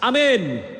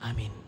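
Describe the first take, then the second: First: It is said at a loud volume. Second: It is said at a middling, modest volume.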